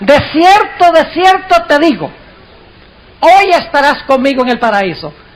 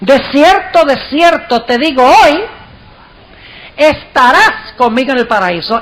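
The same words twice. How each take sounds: First: The pause comes before the word hoy. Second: The pause comes after the word hoy.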